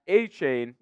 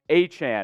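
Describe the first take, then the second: First: The last syllable sounds like 'chain'. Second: The last syllable sounds like 'chan'. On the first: The speaker calls it wrong. "I said that wrong" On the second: The speaker calls it right. "That's the right the second time"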